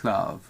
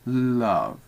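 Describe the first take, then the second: First: The L is voiceless, just air past the tongue. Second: The L is voiced, with the vocal cords. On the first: "we can say it without the vocal cords and go love" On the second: "as if you were in an L, like love"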